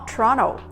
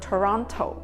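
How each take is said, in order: First: The middle T sound is dropped. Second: The middle T sound is clearly pronounced. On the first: "中間嗰個 T 音咧，唔係點樣發音嘅" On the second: "佢哋咧就未必會讀 Toronto"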